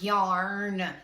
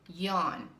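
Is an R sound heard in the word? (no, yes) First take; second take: yes; no. First: The word is said with an R sound. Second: The word is said without an R sound. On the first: The speaker calls it wrong. "it is not yarn. There's no R" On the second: The speaker calls it right. "It's yawn"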